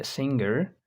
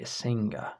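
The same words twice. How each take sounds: First: The final r is clearly pronounced. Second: The final r is dropped, ending in schwa. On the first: "The Americans will say" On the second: "the British will say a singer. They do not pronounce the R"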